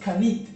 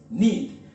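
First: A K sound is pronounced before the N. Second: The word starts directly with the N sound. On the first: The speaker calls it wrong. "No se pronuncia la K, no es canit" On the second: The speaker calls it right. "es knit"

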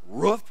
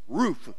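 First: Said the Northern way, like a dog's bark. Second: Said the Southern way, not like a bark. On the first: The speaker calls it wrong. "it's not roof. That's what dogs do" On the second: The speaker calls it right. "It's roof"

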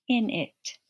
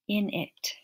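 No difference in how they are said.

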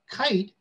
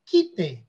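First: The final e is silent; the vowel is long. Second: The final e is sounded, as in Spanish. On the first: The speaker calls it right. "that final E becomes silent and makes the vowel long" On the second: The speaker calls it wrong. "they want to pronounce it quite, because that's how you would pronounce it in Spanish"

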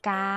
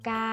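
First: The word is said with a level mid tone. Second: The word is said with a high tone. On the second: "กาไม้ตรี"

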